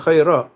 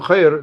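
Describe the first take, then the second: First: The word ends with an added a vowel. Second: The word stops on the final consonant. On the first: The word is in the accusative case. The speaker calls it right. "You have to continue" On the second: The case would have to be genitive or nominative. The speaker calls it wrong. "if you stop with on khair"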